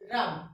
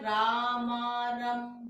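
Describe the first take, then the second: First: The word is said smoothly in one go. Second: Each letter is sounded separately before the word. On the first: The speaker calls it right. "तो आपने इसको क्या बोलना है रम" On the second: The speaker calls it wrong. "कई बच्चे इसको बोलते हैं रामारम, नहीं बोलना, गलत है"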